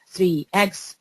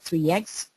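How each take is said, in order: First: The two words are said separately. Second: The two words run together almost as one.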